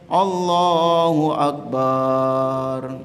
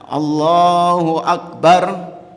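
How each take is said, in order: First: The last syllable has a drawn-out long vowel. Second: The last syllable has a clipped short vowel. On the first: It means God is a drum. The speaker calls it wrong. "Mana salahnya jemaah?" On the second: It means God is the greatest. The speaker calls it right. "Yang betul apa?"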